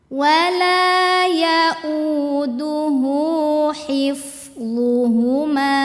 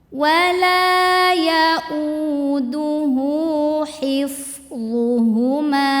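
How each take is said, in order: No difference in how they are said.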